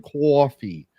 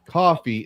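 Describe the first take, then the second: First: Coffee as "kwoffee"; mispronounced coffee. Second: Said in the usual way. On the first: Retold or imitated. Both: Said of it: "say coffee instead of coffee".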